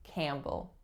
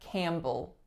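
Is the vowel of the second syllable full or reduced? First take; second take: reduced; reduced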